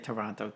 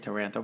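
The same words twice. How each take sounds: First: The name is said with an Italian pronunciation. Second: The name is said with an English pronunciation. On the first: This is how the local relatives say it. "but they would say Toronto" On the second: This is how the speaker says it. "I say Toronto"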